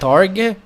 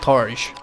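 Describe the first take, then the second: First: The word ends with a hard g sound. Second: The word ends with a soft j sound. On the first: The speaker calls it wrong. "I always call that Targ because like it's uh, like target shield" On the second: The speaker calls it right. "Apparently that's the correct pronunciation"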